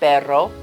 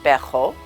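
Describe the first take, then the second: First: The R is a trilled R. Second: The R is a throaty fricative sound.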